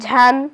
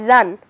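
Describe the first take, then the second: First: It begins with a breathy jh sound. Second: It begins with a buzzing z sound.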